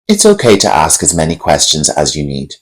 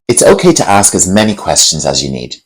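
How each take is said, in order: First: The tone is flat and unexpressive. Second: The tone is warm and expressive. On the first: "Said with a flat tone" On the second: "Let's add some emotional intelligence to this phrase"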